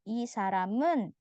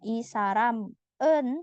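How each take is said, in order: First: The final m links smoothly into the next vowel. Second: The final m and the next vowel are said apart. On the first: The speaker calls it right. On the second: The speaker calls it wrong.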